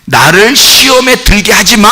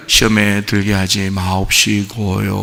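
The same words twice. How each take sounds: First: 시험에 들게 하지 마 said as a firm order, slower and a bit louder; commanding God like a son. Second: Soft, slow humble 마옵시고요; soft reverent prayer wording; timid polite prayer. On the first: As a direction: command it, don't beg. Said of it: "명령이니까 잘 봐요". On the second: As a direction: mumble 시험에 들게 하지 마옵시고요 meekly. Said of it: "그것도 이제 우리가". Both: Shown as a demonstration.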